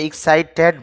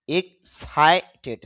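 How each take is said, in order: First: এক্সাইটেড with a full "ted" ending, drawn out; wrong pronunciation. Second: এক্সাইটেড slow, punch on "sai", ending "ti"; stress on SAI. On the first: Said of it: "টেড হবে না". (ভুল উচ্চারণ: এক্সাইটেড, শেষে টেড) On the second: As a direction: push hard on the সাই in এক্সাইটেড. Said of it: "উচ্চারণটা হবে এক্সাইটেড, সার মধ্যে ধাক্কা দিব". (এক্সাইটেড, সাই-তে জোরে ধাক্কা দিয়ে) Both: Shown as a demonstration.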